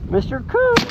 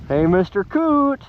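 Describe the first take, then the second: First: High squeaky call to a dead bird. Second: Said in the usual way. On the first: Pretend. Calling to the shot coot again.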